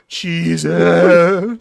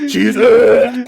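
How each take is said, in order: First: Imitated moan, swelling louder on the uh; mock moaning. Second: Loud, higher retching imitation; mock dry heaving. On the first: Host mimics a player saying cheese, mock moaning. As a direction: moan the word out, hammed-up. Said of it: "you're moaning". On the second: Host mimics a player saying cheese, mock dry heaving. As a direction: heave out the uh like a fake retch. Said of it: "or you're dry heaving".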